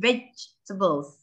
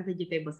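First: "vegetables" as VEJ-tuh-buls; correct pronunciation. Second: "vegetables" with a full "table" in it; wrong pronunciation. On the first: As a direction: squeeze "vegetables" to three syllables, no "table". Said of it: "A-nya tuh nggak dibaca". ("vegetables" dibaca VÉJ-te-bels, A tidak dibaca) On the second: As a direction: say "vegetables" as veh-jee-TAY-buls. ("vegetables" salah baca, fe-ji-té-bels) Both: Shown as a demonstration.

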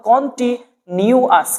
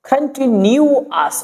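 First: "কন্টিনিউয়াস" opened with rounded kon; kon pronunciation. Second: "কন্টিনিউয়াস" opened with kan; kan pronunciation. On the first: Teacher offering variants, "কন্টিনিউয়াস" slowly with kon. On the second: Teacher offering variants, "কন্টিনিউয়াস" slowly with kan. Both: Shown as a demonstration. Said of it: "কনকে যদি আপনারা কান পড়েন".

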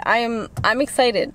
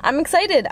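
First: Said in the usual way. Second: High, bright burst on excited. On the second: Real, not acted. Vlogger telling viewers about the school year, high and excited. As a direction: jumps up in pitch with real glee.

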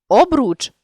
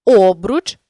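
First: Обруч with final РУЧ stressed high; stress on last syllable. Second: Обруч with О stressed; stress on first syllable. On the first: Teacher means the hoop, обруч stressed on РУЧ. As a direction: land on РУЧ ending обруч. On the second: Teacher means the adverb, Обруч stressed on О. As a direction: punch the opening О of Обруч. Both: Shown as a demonstration. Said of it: "залежно від наголосу".

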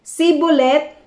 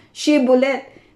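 First: Sibolet with a plain s in place of sh, said higher; wrong Shibboleth. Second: Shibboleth said slowly with a clear sh sound; correct Shibboleth. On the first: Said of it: "hindi ito mabigkas ng tama". (Sibolet, "s" imbes na "sh", medyo mataas) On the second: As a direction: say Shibboleth slowly, with a full sh at the start. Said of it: "Sa atin, madali lang". (Shibboleth na mabagal at malinaw ang "sh") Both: Shown as a demonstration.

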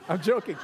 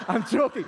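Both takes have the same delivery.

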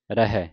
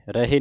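First: ਰਹਿ said as "ra-hai"; two syllables in ਰਹਿ, the last an open "hai"; open -ai ending. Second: ਰਹਿ said as "ra-hay"; two syllables in ਰਹਿ, the last a closed "hay"; closed -e ending. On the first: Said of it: "ਰਹਿ ਪੜ੍ਹਨਾ ਹੈ". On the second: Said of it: "ਰਹਿ ਨਹੀਂ ਪੜ੍ਹਨਾ". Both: Shown as a demonstration.

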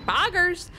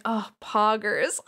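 First: High-pitched cartoon mascot catchphrase; Chuck E. Cheese. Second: Slow, drawn-out mock sympathy; sympathetic. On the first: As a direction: pipe it up like a mascot. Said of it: "say the Chuck E. Cheese Poggers". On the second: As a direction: stretch the catchphrase into condolence. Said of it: "All sympathetic".

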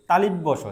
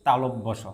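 First: তালিব্য স as talibbo sho, with i; louder তালিব্য with li in the middle; common misreading. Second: তালব্য স as talobbo sho, with o; careful model reading of তালব্য স; correct letter name. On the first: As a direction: popular wrong name তালিব্য স. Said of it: "সেটাও ভুল উচ্চারণ". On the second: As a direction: say lo, not li, in তালব্য. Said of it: "এটাকে বলতে হবে". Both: Shown as a demonstration.

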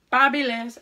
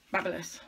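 First: Babyliss said as "Parbileez", louder and put-on; playful pronunciation. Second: Said in the usual way. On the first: Shown as a demonstration. Vlogger naming her straightener brand, mock fancy pronunciation. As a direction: say "Babyliss" with a mock fancy French flair, "par-bi-LEEZ". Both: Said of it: "Babyliss one that I've got".

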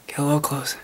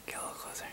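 First: Said in the usual way. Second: Whispered, no voice at all; a close-up whisper. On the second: Acted. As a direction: breathe it into the mic. Whispering the repeat to share the mic.

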